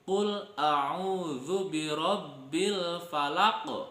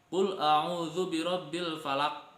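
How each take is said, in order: First: The final q sound bounces with an echo. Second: The final q sound stops flat without echo. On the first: The speaker calls it right. "Yang benar itu" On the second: The speaker calls it wrong. "Jangan bacanya tidak dipantulkan seperti ini contohnya"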